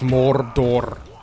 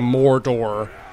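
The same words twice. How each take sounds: First: The R sounds are strongly rolled. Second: The R sounds are plain, not rolled. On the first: The speaker calls it right. "It is almost always Mordor. You gotta roll it" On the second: The speaker calls it wrong. "You'll almost never hear anyone in the movies or in the books or actually involved say"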